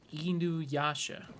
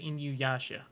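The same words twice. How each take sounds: First: The name is said closer to Japanese pronunciation. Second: The name is said with an American pronunciation. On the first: The speaker calls it right. "I guess would be like the the kind of somewhat more correct one" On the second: The speaker calls it wrong. "which I think is just like I don't know the American in me"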